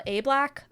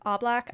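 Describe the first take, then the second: First: A Black said as "AY black"; long A first. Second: A Black said as "AH black"; open AH first. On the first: Unsure host tries the actor's surname, A Black as "AY black". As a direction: start A Black with the vowel of "day". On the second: Host retries the actor's surname, A Black as "AH black". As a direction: start A Black with the vowel of "father". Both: Shown as a demonstration. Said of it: "don't know if I'm saying it right".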